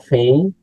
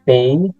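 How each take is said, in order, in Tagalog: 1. Nagsisimula ito sa malambot at may hanging tunog na F. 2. Nagsisimula ito sa biglaan at matigas na tunog na P. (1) "malambot or fey ... May kasamang hangin" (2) "P kapag may tuldok"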